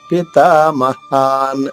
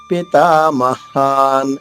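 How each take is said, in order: Both takes have the same delivery.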